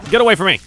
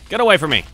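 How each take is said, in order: Both takes have the same delivery.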